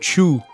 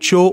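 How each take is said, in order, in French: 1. La syllabe se prononce avec une voyelle u. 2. La syllabe se prononce avec une voyelle o. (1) "au lieu de chu" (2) "je dis euh, cho au lieu de chu"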